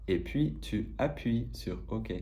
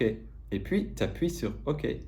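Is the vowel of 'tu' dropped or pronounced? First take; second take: pronounced; dropped. First: The vowel of tu is fully pronounced. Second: Tu is reduced to a single t sound.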